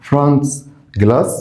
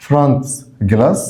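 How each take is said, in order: Both takes have the same delivery.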